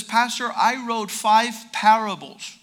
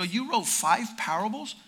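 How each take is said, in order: First: Slow, louder imitated announcement; mock proud announcement. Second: Retold question with a rising tune; incredulous echo question. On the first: Young man on mission field tells pastor, mock proud. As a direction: imitate someone announcing his achievement slowly. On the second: Pastor questions young man's five parables, incredulous. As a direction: echo it back as a doubting question.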